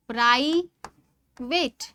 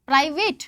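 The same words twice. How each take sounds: First: private split slowly into प्राइ, pause, वेट; syllable by syllable. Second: Said in the usual way. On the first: Shown as a demonstration. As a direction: draw out private as two separate beats, प्राइ... वेट. (Private को धीरे-धीरे दो हिस्सों में, प्राइ... वेट) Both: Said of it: "में आपका दो syllable आया".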